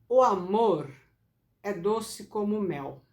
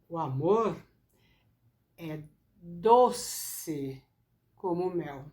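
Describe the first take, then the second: First: All words get even stress, nothing stands out. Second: The word 'doce' is stressed and drawn out. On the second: "ela que é mais forte, porque a palavra doce é a que tenho que enfatizar"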